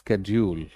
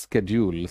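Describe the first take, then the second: First: The word begins with an sk sound. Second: The word begins with an sk sound.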